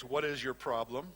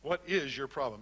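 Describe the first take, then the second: First: "What" lifted as the key word; stress on WHAT. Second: "is" stressed with a falling close. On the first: Counselor demonstrating emphasis on "What". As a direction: lean on "What" at the start. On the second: Counselor showing a pushier emphasis on "is". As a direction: press on "is" to sound accusing. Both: Shown as a demonstration. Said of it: "you just gotta be careful where you put the emphasis".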